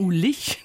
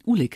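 First: The name is said the Düsseldorf way. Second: The name is said the Bavarian way.

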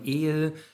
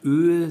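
First: The vowel is said with spread lips. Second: The vowel is said with rounded lips. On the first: This is the Texas German form. "dass man die Vorderzungenvokale entrundet" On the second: This is the standard German form. "statt öl"

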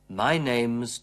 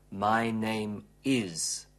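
First: The word is is shortened onto name. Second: The word is is said in full. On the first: The speaker calls it right. "wir verkürzen auch hier das is" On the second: The speaker calls it wrong. "Wir sagen im gesprochenen Englisch natürlich nicht my name is"

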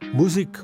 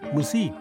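First: The stress is on the first syllable. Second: The stress is on the second syllable.

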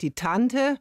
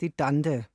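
First: The word has a hard T sound. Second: The word has softened D sounds.

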